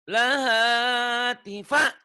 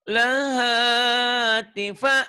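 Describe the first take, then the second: Both takes have the same delivery.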